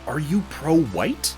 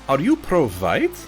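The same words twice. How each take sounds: First: It is spoken in the speaker's ordinary accent. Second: It is spoken with a put-on German accent.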